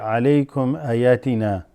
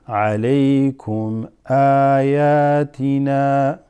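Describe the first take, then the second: First: The opening vowel of ayatina is short. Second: The opening vowel of ayatina is long. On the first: The speaker calls it wrong. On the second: The speaker calls it right.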